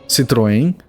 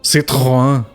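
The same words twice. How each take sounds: First: It is said with the local pronunciation. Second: It is said with the original French pronunciation. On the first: This is how people locally say it. "for here we call it" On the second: This is the intended pronunciation. "It's supposed to be pronounced"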